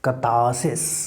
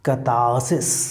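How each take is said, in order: First: The r after the first vowel is silent. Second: The same.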